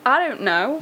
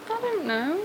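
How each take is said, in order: First: It is said loudly in a squeaky voice. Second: It is said quietly in a squeaky voice.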